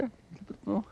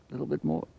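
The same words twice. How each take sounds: First: Much higher, softer coax to the animal. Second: Said in the usual way. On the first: Real, not acted. Coaxing animal to drink.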